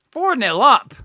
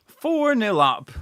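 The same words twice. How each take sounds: First: Loud high shout of the score; excited shout. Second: Slow, drawn-out repeat of "Four nil up"; slow savouring. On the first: Fan shouting the score at his watch-along. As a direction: yell it out in delight. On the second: Fan savouring the score for his viewers. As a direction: let "Four" sink in slowly. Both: Real, not acted.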